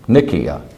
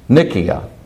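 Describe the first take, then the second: No difference in how they are said.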